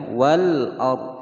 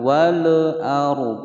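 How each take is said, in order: First: The l sound is held clearly without bouncing. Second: The l sound is bounced with a small echo. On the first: The speaker calls it right. "tidak boleh dipantulkan" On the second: The speaker calls it wrong. "wal salah ya"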